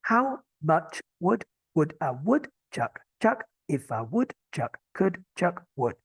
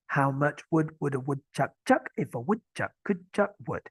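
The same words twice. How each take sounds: First: It is said slowly. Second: It is said fast.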